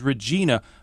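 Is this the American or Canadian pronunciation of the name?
American. The name is pronounced the American way. "as you would pronounce the name, at least here, as Regina"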